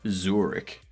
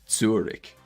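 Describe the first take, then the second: First: It is said with an English pronunciation. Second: It is said with a German pronunciation. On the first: The speaker calls it right. "in English, we just say Zurich" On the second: The speaker calls it wrong. "we don't say Zurich"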